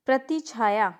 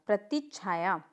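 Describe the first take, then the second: First: प्रतिछाया with a single "chh"; incorrect pronunciation. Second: प्रतिछाया softer, with doubled "chchh"; correct pronunciation. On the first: Teacher showing a mistake, प्रतिछाया without held ch. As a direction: say प्रतिछाया as pra-ti-chhaa-yaa. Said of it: "नहीं". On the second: Teacher adding half ch, प्रतिछाया with held consonant. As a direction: hold the stop in प्रतिछाया, pra-tich-chhaa-yaa. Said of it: "आधा च आएगा". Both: Shown as a demonstration.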